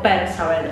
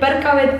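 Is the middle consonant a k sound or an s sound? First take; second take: s sound; k sound. First: The middle consonant is an s sound. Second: The middle consonant is a k sound. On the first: The speaker calls it wrong. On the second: The speaker calls it right.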